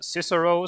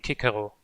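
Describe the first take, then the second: First: The name is said with a non-Latin pronunciation. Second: The name is said with a Latin pronunciation. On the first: "like um, Xavier meant" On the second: "the Latin pronunciation"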